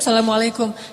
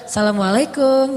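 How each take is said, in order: First: The greeting is said in a plain, ordinary tone. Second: The greeting is said in a flirtatious tone.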